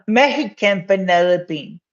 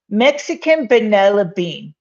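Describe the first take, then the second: First: "Mexican" with a Spanish h sound, a light Mexican accent; a hint of a Mexican accent, said for fun; playful Mexican accent. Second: Said in the usual way. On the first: Shown as a demonstration. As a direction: try a Mexican accent on "Mexican vanilla bean". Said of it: "how's my, um, Mexican accent?". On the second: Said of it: "Mexican accent?".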